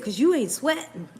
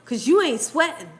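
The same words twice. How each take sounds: First: Quoting husband while laughing; can't keep a straight face; laughing through quote. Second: Said in the usual way. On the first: Retold or imitated. Retelling husband's line to viewers, laughing. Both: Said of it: "He said".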